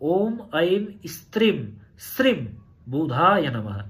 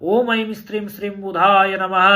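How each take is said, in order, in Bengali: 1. বাক্যাংশটি ধীরে ও স্পষ্টভাবে বলা হয়েছে। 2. বাক্যাংশটি স্বাভাবিক, একটু দ্রুত গতিতে বলা হয়েছে।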